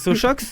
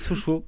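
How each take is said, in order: First: The name ends with a pronounced x sound. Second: The name ends with a silent x. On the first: The speaker calls it wrong. "Non, on dit pas Sochox" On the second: The speaker calls it right. "On dit Sochaux"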